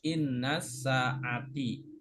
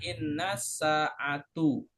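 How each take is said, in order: First: The last word ends with an i vowel. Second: The last word ends with a u vowel. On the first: "Nggak boleh dibaca" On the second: "Nggak boleh dibaca"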